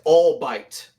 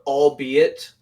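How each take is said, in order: First: It is said with two syllables, all-bite. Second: It is said with three syllables, all-be-it. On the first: The speaker calls it wrong. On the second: The speaker calls it right.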